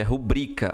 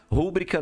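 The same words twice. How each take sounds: First: "rubrica" stressed on BRI, ru-BRI-ca; correct stress. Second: "Rúbrica" stressed on RU, the wrong way; "Rúbrica" with the wrong stress on the opening RU. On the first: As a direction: say "rubrica" with the weight on the middle syllable BRI. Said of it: "é rubrica". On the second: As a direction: say "Rúbrica" hitting the first syllable RU. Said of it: "Rúbrica não existe". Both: Shown as a demonstration.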